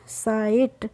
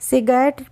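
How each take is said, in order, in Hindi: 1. यह शब्द लंबे i और मौन gh के साथ पढ़ा जाता है। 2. यह शब्द छोटे i और उच्चारित gh के साथ पढ़ा जाता है। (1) "आप क्या पढ़ेंगे? साइट" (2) "सिगरेट पढ़ने की कोशिश नहीं कीजिए"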